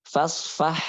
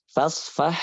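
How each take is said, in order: Both takes have the same delivery.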